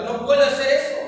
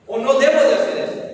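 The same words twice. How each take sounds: First: Said in the usual way. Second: Debo punched louder as the correction; "debo" said louder, fixing the earlier word; stress on debo. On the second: Shown as a demonstration. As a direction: lean hard on debo, correcting yourself.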